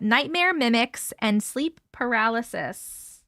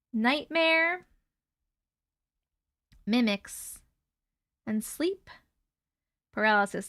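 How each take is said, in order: First: Said in the usual way. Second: Spooky title, each word separated and drawn out. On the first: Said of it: "reading story title". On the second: Shown as a demonstration. Streamer announces the scary story title to viewers, spooky and drawn out. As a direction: pause between every word of the title. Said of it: "title said eerily, spaced".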